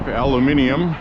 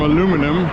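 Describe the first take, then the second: First: It is said with a European pronunciation. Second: It is said with an American pronunciation. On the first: The speaker calls it right. "as you say in Europe" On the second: The speaker calls it wrong. "you know how Americans are"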